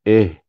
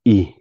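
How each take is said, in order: First: The vowel is an open eh sound. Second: The vowel is a thin ee sound. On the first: The speaker calls it wrong. "jangan eh, ... alif itu dia tidak kasrohkan" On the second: The speaker calls it right. "Kena kasrohkan. Bawah"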